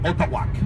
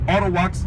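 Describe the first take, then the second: First: The name begins with an 'ot' sound. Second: The name begins with an 'ar' sound. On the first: This is the original pronunciation. "the real pronunciation is Otawak" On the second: This is the everyday modern pronunciation. "Arawaks is how we pronounce it nowadays"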